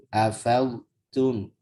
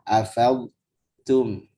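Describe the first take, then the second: The two takes are said the same way.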